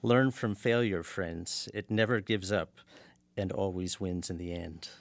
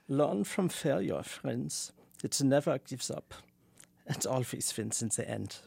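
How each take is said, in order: First: It is said in his plain American voice. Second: It is said in a put-on German-like accent.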